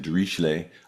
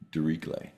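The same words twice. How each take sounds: First: It uses the widely heard everyday pronunciation. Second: It uses the namesake's own pronunciation. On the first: This is how most people say the name. The speaker calls it wrong. "a lot of people say Dirichlet" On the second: This is how the man himself said his name. The speaker calls it right. "he pronounced it Diri, Dirichlet"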